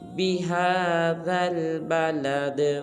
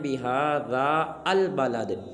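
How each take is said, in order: First: The d runs straight into the l sound. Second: The a and the al are said as separate syllables. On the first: The speaker calls it right. "दाल को आगे लाम साकिन के साथ मिलाएंगे" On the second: The speaker calls it wrong. "ये बिल्कुल गलत है"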